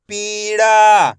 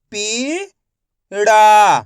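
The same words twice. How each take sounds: First: Said in the usual way. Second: पीड़ा drawn out slowly, syllables apart; teacher sounding out पीड़ा slowly. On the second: Shown as a demonstration. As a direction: stretch पीड़ा into पी and ड़ा. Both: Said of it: "मैं किस तरीके से एक एक अक्षर का उच्चारण करके".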